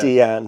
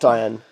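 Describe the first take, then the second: First: The name begins with a 'dee' sound. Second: The name begins with a 'die' sound. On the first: The speaker calls it right. "Deanne, not Diane" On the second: The speaker calls it wrong. "not Diane"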